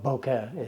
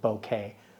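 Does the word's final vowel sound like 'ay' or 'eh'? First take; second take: eh; ay. First: The word ends with a short 'eh' vowel. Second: The word ends with an 'ay' vowel. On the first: The speaker calls it right. "it's an eh sound" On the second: The speaker calls it wrong. "not an A sound. So there's no bouquet"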